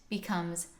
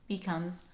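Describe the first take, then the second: Both takes have the same delivery.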